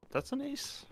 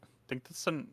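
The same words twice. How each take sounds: First: Rising, questioning ace call; high, rising, unsure question; surprised question. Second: Said in the usual way. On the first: Real, not acted. Unsure whether it was an ace.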